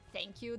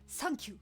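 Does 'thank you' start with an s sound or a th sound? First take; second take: th sound; s sound. First: It starts with a th sound. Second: It starts with an s sound.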